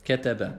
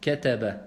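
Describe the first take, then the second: The two takes are said the same way.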